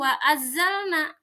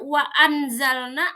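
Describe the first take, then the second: First: The n merges fully into the following z. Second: The n is pronounced fully and clearly. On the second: "Tidak dibaca"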